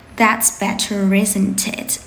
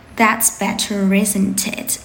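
First: The words run together, linked. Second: The same.

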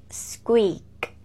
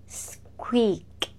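Both takes have the same delivery.

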